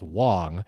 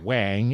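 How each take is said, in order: First: The name is said as Wong. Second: The name is said as Wang. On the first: This is the standard pronunciation of the name. "what it should be pronounced as, which is Wong" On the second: This is how the skater says the name. "who pronounces it Wang"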